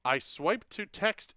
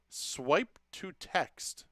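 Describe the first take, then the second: First: Said in the usual way. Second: Swipe to text drawn out slowly, stress on Swipe; slow, deliberate. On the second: Shown as a demonstration. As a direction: spell out Swipe to text word by word, leaning on Swipe.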